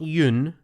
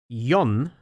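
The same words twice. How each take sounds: First: The vowel does not rhyme with fun. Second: The vowel rhymes with the word fun. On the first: The speaker calls it wrong. "not Yun" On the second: The speaker calls it right. "rhymes with fun"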